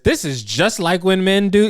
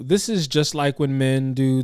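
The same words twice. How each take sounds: First: It is said in an irritated, pointed tone. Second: It is said in a light, casual tone. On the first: It sounds like an accusation. "that is an irritating tone" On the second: It is a harmless observation. "I hear her in her tone saying"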